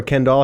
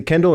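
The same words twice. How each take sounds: First: Kendall with an open final vowel, like ken-DAWL; full second syllable. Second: Kendall with a weak final vowel, like KEN-dl; reduced second syllable. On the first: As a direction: give the end of Kendall a full "all". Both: Shown as a demonstration. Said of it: "how do you say your last name".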